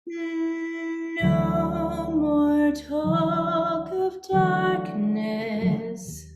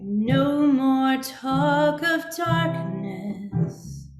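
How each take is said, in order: First: It sounds soothing, with smooth, flowing vowels. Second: It sounds warning, with clipped, brighter vowels.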